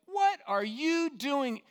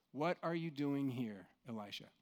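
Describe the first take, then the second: First: Slow, much higher, louder angry demand. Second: Gentle question. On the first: Preacher showing the wrong angry tone of God's question, loud and slow. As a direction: snap it like a scolding. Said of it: "hear that with some sort of anger". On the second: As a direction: ask it tenderly, not in anger. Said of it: "that tone is correct". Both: Shown as a demonstration.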